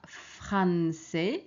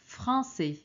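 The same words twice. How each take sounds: First: The first vowel is oral, with an N sound. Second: The first vowel is nasal, with no N sound. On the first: The speaker calls it wrong. "Ce n'est pas français" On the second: The speaker calls it right. "c'est français"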